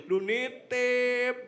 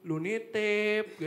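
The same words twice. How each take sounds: First: Louder, very slow, drawn-out "Lu nitip"; same friend's reproach, slower and more exaggerated; exaggerated mock complaint. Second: Louder, slow drawn-out reproach; mock complaint. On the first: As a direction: ham up the nagging friend even more. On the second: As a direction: stretch out "Lu nitip" like a nagging friend. Friend complaining about the errand.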